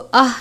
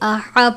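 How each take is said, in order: First: The syllable ends on a bare h sound. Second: The h is followed by an a vowel. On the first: The speaker calls it wrong. "इसको आह नहीं पढ़ना" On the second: The speaker calls it right. "बल्कि आहा पढ़ना है"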